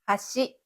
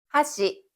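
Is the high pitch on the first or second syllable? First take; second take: second; first. First: The pitch is high on the second syllable. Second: The pitch is high on the first syllable. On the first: It means bridge. "다리란 뜻의 하시는 뒤에 나오는 시를 높게 읽습니다" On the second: It means chopsticks. "젓가락이란 뜻의 하시는 앞에 나오는 하를 높게 읽고"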